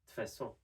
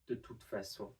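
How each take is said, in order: First: The phrase is shortened, with sounds dropped. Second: The phrase is said in full, every syllable.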